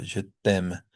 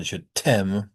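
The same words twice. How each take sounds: First: Je t'aime with T straight into the vowel, almost like D; no breath after the T in t'aime; unaspirated French T. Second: Je t'aime with an English puffed T; wrongly aspirated T. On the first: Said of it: "that T goes straight into the vowel". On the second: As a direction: put a burst of breath after the T in t'aime. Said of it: "It's not". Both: Shown as a demonstration.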